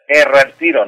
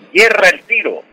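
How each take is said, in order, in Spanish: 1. La primera palabra empieza con una vocal simple. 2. La primera palabra empieza con sonido de 'y'. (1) "no es erra el tiro" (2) "sino yerra"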